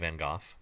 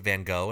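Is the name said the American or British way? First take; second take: British; American. First: The name is said the British way. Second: The name is said the American way. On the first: "the British say Van Gogh" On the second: "Why do we pronounce it Van Gogh"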